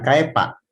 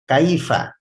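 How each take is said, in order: First: The middle consonant is a p sound. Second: The middle consonant is an f sound. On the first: The speaker calls it wrong. "Bukan bukan kaipa" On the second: The speaker calls it right. "gigi seri atas nempel ke perut bibir bawah"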